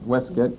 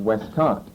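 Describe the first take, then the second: First: It is said in a clipped British accent. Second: It is said in a drawn-out American accent. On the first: "I believe they would call it Westcott" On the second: "instead of Westcott. They don't draw everything out and pronounce it like we do"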